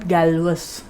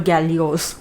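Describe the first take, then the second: First: The name ends with a sounded -us. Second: The name has three syllables ending in -os. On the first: "and not Galvus" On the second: "Or Gallios"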